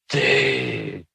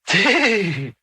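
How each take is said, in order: First: It is said with dismay and reproach. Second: It is said with impressed, amazed enthusiasm. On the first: You have made a big mistake. "oh boy, you've messed up big time" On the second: That is cool. "whoa, that's cool"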